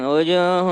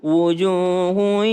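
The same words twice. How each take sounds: First: The u vowel is said with spread, unrounded lips. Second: The u vowel is said with rounded, forward lips. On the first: The speaker calls it wrong. "banyak yang wujuhu" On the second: The speaker calls it right. "harus u"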